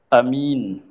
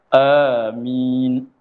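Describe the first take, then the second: First: Short first vowel, single m sound. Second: Long first vowel, single m sound. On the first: "Kalau A pendek" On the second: "panjangkan hamzah, mim tidak bertasydid"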